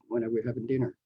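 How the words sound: The pitch falls at the end.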